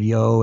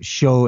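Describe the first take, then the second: First: The word starts with a y sound. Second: The word starts with an sh sound.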